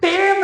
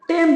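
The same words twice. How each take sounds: First: The vowel is drawn out long. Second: The vowel is kept short. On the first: The speaker calls it wrong. "यहाँ पे टेम नहीं बोलेंगे, लंबा उच्चारण नहीं करेंगे" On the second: The speaker calls it right. "लंबा नहीं करेंगे, छोटा करेंगे, टेम बोलेंगे"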